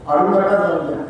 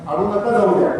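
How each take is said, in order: No difference in how they are said.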